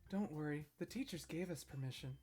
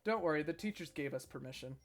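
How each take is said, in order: First: It is read in a put-on character voice. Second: It is read in a plain, natural voice.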